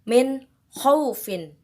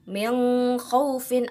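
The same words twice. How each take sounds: First: The n sound is pronounced clearly. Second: The n sound is blurred, not clearly pronounced. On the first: The speaker calls it right. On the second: The speaker calls it wrong.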